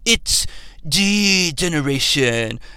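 It is a posh, blue-blood tough-guy voice.

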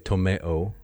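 It is said with a British-style vowel.

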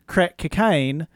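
It is said in a New Zealand accent.

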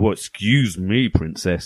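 It is said in a grumpy tone.

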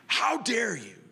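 It is said in an imitation of the woman's voice.

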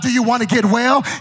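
The question is asked in an annoyed tone. The asker is fed up with the listener. "with a vocal intonation of annoyance"

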